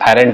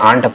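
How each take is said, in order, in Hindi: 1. इसे दो अक्षर में बोला जाता है, 'arent'। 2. इसे एक अक्षर में बोला जाता है, 'aant'। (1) "एरेंट नहीं पढ़ना है, एरेंट बड़ा बेहुदा लगेगा" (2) "इसे आंट पढ़ते हैं"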